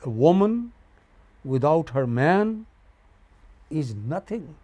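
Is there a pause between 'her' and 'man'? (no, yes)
no. There is no pause between 'her' and 'man'. A woman is nothing without a man. "You don't give a pause between her and man"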